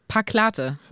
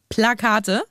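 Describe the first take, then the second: First: The l sound comes in the second syllable. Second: The l sound comes in the first syllable. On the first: The speaker calls it wrong. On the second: The speaker calls it right.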